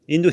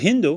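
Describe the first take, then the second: First: The word starts with a vowel, no H. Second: The word starts with an H sound.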